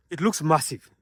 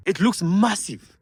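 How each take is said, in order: First: Said in the usual way. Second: Higher, louder, slower, stretching "looks"; impressed emphasis. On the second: Real, not acted. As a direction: lean into "looks" like you can't believe the size. Repeats for emphasis.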